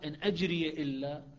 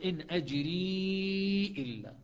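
First: The final y of ajri carries an a vowel. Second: The final y of ajri has no vowel. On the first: "حفص يفتح الياء" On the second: "شعبة يسكنوها"

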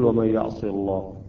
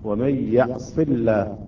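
First: The L in the last word sounds heavy. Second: The L in the last word sounds thin. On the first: The speaker calls it wrong. "لا نقول" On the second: The speaker calls it right. "إذا كان الحرف الذي قبل لام لفظ الجلالة مكسور هنا اللام ترقق"

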